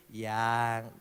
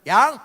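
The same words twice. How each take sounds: First: "Yang" said softly and lower, full of affection; a soft, tender "Yang" the right way; loving tone. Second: "Yang" barked short and loud with a rise; a loud, sharp "Yang" the wrong way; curt loud call. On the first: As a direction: coo "Yang" tenderly to your wife. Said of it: "Intonasinya itu penuh nada kasih". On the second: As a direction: snap "Yang" like an order, no affection. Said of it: "jadi sayangnya itu jangan". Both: Shown as a demonstration.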